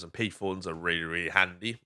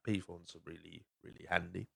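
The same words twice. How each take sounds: First: Said in the usual way. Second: Near-murmured aside, far softer; much softer repeat. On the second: Real, not acted. Podcaster repeating his payphone view to listeners, almost murmured.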